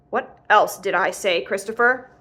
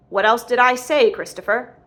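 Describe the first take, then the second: First: Slow, pointed questioning; deliberate, restrained anger; stern demand. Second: Loud, insistent questioning; raised-voice demand, dropping on the name; angry repeated demand. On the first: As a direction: press for the answer, word by word. Father presses son for an answer. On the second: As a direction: hammer the question out. Father repeats the question, angrier. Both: A narrator's reading.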